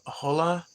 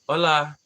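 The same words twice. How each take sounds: First: It is read like a misspelled English word. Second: It is said with a normal Spanish pronunciation. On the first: The speaker calls it wrong. "I just pronounced it like someone was trying to misspell hello" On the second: The speaker calls it right. "I do know how to pronounce hola"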